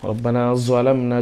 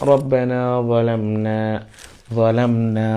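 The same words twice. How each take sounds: First: "যালামনা" with a hard buzzing z at the start; wrong hard-z "যালামনা"; hard z, mistaken. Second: "যালামনা" slowly, with a soft th-like start; slow chant, soft dental start on "যালামনা"; soft recitation. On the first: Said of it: "ভুল হবে". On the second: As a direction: draw out "যালামনা", keeping the first sound soft. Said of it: "এটা নরম উচ্চারণ করতে হবে". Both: Shown as a demonstration.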